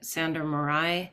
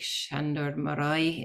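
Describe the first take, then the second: First: The name is pronounced the English way. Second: The name is pronounced the Hungarian way.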